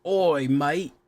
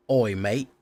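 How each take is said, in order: First: Higher, hammed-up Australian accent; Aussie accent. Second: Light attempt at an Aussie accent. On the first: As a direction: overdo a bad Aussie "mate" as "mite". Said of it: "I'm so bad at it". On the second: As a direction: try a mild Australian "oi, mate". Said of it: "didn't know you're an Aussie".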